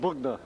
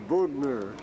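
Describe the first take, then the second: First: The name is said quickly with a reduced ending. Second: The name is said slowly with a full ending.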